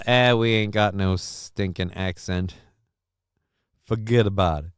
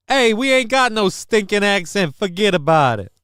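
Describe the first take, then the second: First: A first, half-hearted try at a tough New York accent, "we ain't got no stinking accent" close to his usual voice; only a faint hint of New York in "Forget about it"; weak New York accent. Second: A hammed-up New York tough-guy accent, higher and louder, leaning on "ain't" in "we ain't got no stinking accent"; a big, brash New York "Forget about it". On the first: Host to chat, testing a New York accent, mild. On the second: Host to chat, nailing the New York accent on the retry, brash. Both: Shown as a demonstration.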